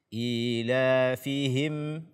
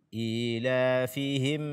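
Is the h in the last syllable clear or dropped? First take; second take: clear; clear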